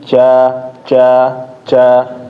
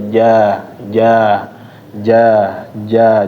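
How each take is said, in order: First: The j is pressed hard with a strong release. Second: The j is touched lightly with a soft release. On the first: The speaker calls it wrong. "jangan terlalu menempel di langit-langit" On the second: The speaker calls it right. "dia kayak lemes aja nempelnya"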